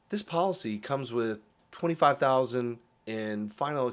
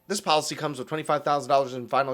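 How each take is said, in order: First: The sentence is spoken slowly and deliberately. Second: The sentence is spoken quickly and evenly. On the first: The coverage is important and worth noticing. The speaker calls it right. "slow down when something matters" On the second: The coverage is just a routine detail. The speaker calls it wrong. "like it's a line item"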